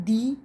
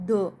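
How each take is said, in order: First: "the" said as "thee"; long "thee" for "the"; emphatic long "the". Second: "the" said as "duh"; short "thuh" for "the". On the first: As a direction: give "the" a long ee vowel. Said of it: "we will use only". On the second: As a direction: keep "the" short with a schwa. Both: Shown as a demonstration.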